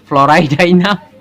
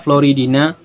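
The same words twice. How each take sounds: First: The i vowels sound like 'eye'. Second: The i vowels sound like 'ee'. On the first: "kalau saya membacanya" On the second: "kalian mungkin bacanya biasa aja"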